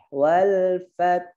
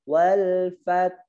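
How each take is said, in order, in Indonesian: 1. Konsonan akhirnya adalah bunyi h yang lembut dan berhembus. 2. Konsonan akhirnya adalah bunyi h yang lembut dan berhembus.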